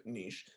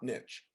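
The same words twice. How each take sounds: First: "niche" said as "neesh"; French-style pronunciation. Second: "niche" said as "nitch"; rejected pronunciation. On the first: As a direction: say "niche" with a long ee and a soft sh. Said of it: "we pronounce it niche". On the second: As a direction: say "niche" with a short i and a tch ending. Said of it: "we pronounce it niche, not niche". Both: Shown as a demonstration.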